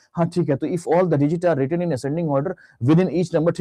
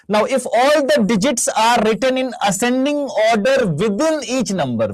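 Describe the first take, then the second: First: Brisker, unemphatic read-through in a student's role; imitating a student skimming the question; hasty student reading aloud. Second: Slow, emphatic, raised-pitch reading; deliberate read-aloud, high and drawn out; careful question reading. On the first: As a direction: read it straight through without stopping to think. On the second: Shown as a demonstration. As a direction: read the question out slowly, phrase by phrase. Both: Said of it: "बच्चा से पढ़ा".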